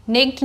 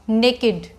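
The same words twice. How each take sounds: First: "Naked" as one syllable, nekt; wrong pronunciation. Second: Put-on "naked" as NAY-kid, falling; correct pronunciation. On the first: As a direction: swallow the second vowel in "Naked", nekt. ("Naked" का गलत उच्चारण, नेक्ट) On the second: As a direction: give "naked" both syllables, NAY-kid. ("naked" का सही उच्चारण, ने-किड) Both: Shown as a demonstration. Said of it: "नहीं बोलना है इसको".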